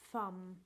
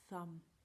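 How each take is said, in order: First: The first sound is made with the teeth. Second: The first sound is made with the tongue. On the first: The speaker calls it wrong. "saying the sound with your teeth like this" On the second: The speaker calls it right. "But it's actually thumb, Say it with your tongue"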